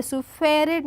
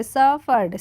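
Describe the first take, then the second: First: Suffered said as "supered", the wrong way; wrong reading. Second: Suffered said as "saperd", the right way; right reading. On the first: Teacher showing the wrong reading of suffered. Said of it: "suffered नहीं पढ़ेंगे". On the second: Teacher giving the correct reading of suffered. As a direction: read suffered correctly, with the short first syllable. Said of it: "क्या पढ़ेंगे". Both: Shown as a demonstration.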